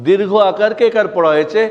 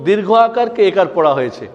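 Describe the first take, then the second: The two takes are said the same way.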